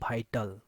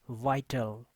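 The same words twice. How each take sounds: First: The first sound does not use teeth on lip. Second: The first sound uses upper teeth on lower lip. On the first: The speaker calls it wrong. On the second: The speaker calls it right.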